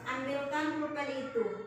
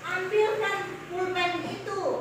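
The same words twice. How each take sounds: First: The voice stays flat toward the end. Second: The voice rises toward the end. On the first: The speaker calls it wrong. "Benar atau salah itu? Salah" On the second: The speaker calls it right. "suara intonasinya harus naik"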